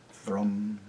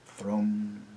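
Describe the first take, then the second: No difference in how they are said.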